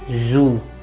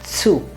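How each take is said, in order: First: The word begins with a z sound. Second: The word begins with a ts sound. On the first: The speaker calls it wrong. "don't say zoo" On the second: The speaker calls it right. "when it is zu"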